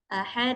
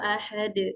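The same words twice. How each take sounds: First: The final vowel is stretched out long. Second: The final consonant ends with a clear bounce. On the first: The speaker calls it wrong. "menambahkan mad atau panjang" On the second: The speaker calls it right. "bunyinya akan terdengar dengan lebih jelas"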